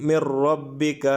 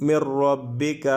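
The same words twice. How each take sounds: The two takes are said the same way.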